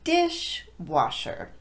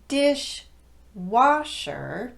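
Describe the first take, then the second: First: The stress falls on the first syllable, dish. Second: The stress falls on the second syllable, wash. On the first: The speaker calls it right. "the first word gets all of the emphasis. So it sounds like this" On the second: The speaker calls it wrong. "Instead of dishwasher"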